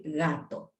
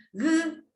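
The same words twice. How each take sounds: First: Said in the usual way. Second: High robot voice, split into separate sounds. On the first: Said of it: "unir esos sonidos y decir". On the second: Shown as a demonstration. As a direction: sound out "G-A-T-O" letter by letter, high and mechanical. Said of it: "el robot dice".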